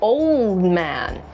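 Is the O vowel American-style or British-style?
American. The O vowel is the more rounded American one. The speaker calls it right. "he's an old man"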